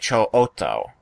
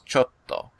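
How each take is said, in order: First: The o sound is doubled before the t. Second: A short pause comes before a hard t. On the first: This is how the word is broken up in song lyrics. "they will double the vowel sound that precedes a doubled consonant" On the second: This is how the word is normally spoken. "usually there's like a small pause in your voice and then you hit the consonant hard"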